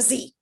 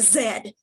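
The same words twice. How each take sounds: First: The letter name is said the American way. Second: The letter name is said the British way. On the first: "and not a Z" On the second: "in Britain, they're going to call that a Z"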